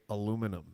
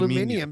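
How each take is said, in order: First: It is said the American way. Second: It is said the British way. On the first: The speaker calls it wrong. "how uh, we say aluminum" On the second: The speaker calls it right. "he's so right"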